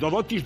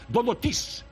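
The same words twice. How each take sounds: First: The stress is on the middle syllable. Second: The stress is on the last syllable.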